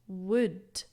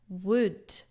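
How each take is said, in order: The two takes are said the same way.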